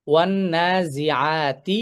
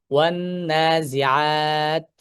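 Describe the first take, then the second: First: Very slow ওয়ান নাজিআতি, vowels drawn out; recitation demo. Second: ওয়ান নাজিআত ending on a silent ত; stopping demo. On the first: Teacher demonstrating continuous reading of ওয়ান নাজিআতি, slow recitation. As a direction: chant ওয়ান নাজিআতি slowly, continuing through the ত. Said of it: "ধরলাম এরকম যে". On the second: Teacher showing how to pause on the ত, slow recitation. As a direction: recite very slowly, stop dead on ত with sukun. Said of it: "তাহলে আমি কিভাবে থামবো?". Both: Shown as a demonstration.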